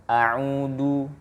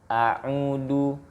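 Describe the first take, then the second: The two takes are said the same way.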